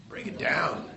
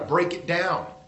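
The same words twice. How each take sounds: First: It is said in a put-on rapper-style voice. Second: It is said in a plain speaking voice. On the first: A catchphrase from rap music. The speaker calls it wrong. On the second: Overcome a bad habit. The speaker calls it right.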